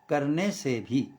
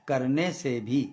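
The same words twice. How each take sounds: No difference in how they are said.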